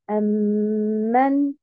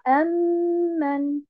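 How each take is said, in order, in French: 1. L'accent tombe sur la deuxième syllabe. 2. L'accent tombe sur la première syllabe. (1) "je vais mettre un nabr sur la deuxième haraka. Et en termes de prononciation, je vais dire amen" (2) "et non pas amen"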